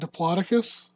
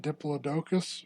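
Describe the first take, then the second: First: The word is said in a non-British way. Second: The word is said in a British way.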